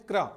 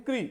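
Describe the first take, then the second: First: "क्रा" said as "kraa", k joined to raa; sound demonstration. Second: "क्री" said as "kree", k joined to ree; sound demonstration. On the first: Teacher names the mark for students, "क्रा" with the raa sound. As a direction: say "क्रा" with an open aa. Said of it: "ये इसे बोलते हैं". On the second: Teacher contrasts the second mark, "क्री" with the ree sound. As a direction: say "क्री" with an ee vowel. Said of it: "और इसे बोलते हैं". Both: Shown as a demonstration.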